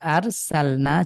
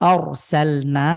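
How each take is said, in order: First: The r is pronounced thin and light. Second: The r is pronounced thick and heavy. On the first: "চিকন" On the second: "মোটা"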